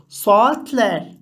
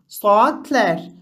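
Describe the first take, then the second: No difference in how they are said.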